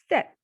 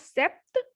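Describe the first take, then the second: First: The P sound is silent in the word. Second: The P sound is pronounced in the word. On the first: The speaker calls it right. "P will be silent" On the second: The speaker calls it wrong. "not sept"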